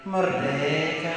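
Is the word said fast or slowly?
slowly. It is said slowly, in a Kefa accent.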